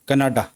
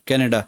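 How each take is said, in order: First: The word is said with a Hindi pronunciation. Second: The word is said with an English pronunciation. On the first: "अगर आप हिंदी में बोलोगे ना तो इसको बोला जाएगा कनाडा" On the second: "जो इंग्लिश में बात करती है वो बोलेंगे कनाडा"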